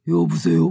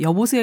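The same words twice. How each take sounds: First: It is said in a hoarse, deep voice. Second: It is said in a normal voice.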